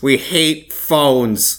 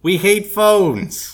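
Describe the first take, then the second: First: Very slow, stressed HATE; David Lynch impression. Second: Very slow, loud nasal drawl; David Lynch impression. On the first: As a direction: echo it slow and nasal. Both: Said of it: "I had a David Lynch impression".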